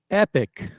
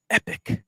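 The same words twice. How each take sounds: First: Higher, louder burst of awe; excited exclamation. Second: Breathy whispered awe. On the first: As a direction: shout it out, thrilled. Repeats word loud. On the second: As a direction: whisper it like a treasure. Hushed awe at watch. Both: Acted.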